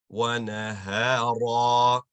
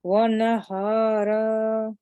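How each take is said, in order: First: Slow, loud wa nahara with the final a stretched; recitation demo. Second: Slow wa nahara copied from the teacher; student repeat. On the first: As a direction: chant wa nahara, stretching the end. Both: Shown as a demonstration. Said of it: "So it's going to be".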